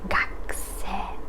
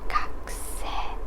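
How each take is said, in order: The two takes are said the same way.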